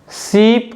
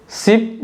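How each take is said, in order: First: शीप with the ई held long; शीप drawn out on a long ee, teacher demo; long vowel demo. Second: शिप with a quick short इ, vowel clipped; शिप with a brief short i, teacher demo. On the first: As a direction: stretch the ee in शीप. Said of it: "मुझे ज़्यादा समय लग रहा है". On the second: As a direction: say शिप fast, barely touching the i. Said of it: "ई sound को बोलते समय मुझे ज़्यादा समय नहीं लग रहा है". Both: Shown as a demonstration.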